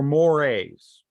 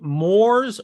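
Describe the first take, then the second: First: "mores" as MOR-ayz; two-syllable pronunciation. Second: "mores" as one syllable, like "moors"; one-syllable pronunciation. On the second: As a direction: say "mores" with a silent e. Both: Shown as a demonstration. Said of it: "how do you pronounce this".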